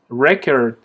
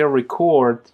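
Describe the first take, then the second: First: "record" as a noun, stress on the first syllable, REcord; "record" stressed up front like the noun. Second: "record" as a verb, stress on the second syllable, reCORD; "record" stressed at the end like the verb. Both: Shown as a demonstration.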